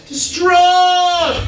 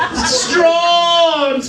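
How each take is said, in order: First: Overacted wail, pitched high; hammed-up despair. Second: Overacted shout. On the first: Storyteller overacting the man's grief for Bob. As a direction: ham it up, mock anguish. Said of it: "That's acting". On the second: Storyteller hamming up the owner's grief for the audience. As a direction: overdo the grief, crying it out.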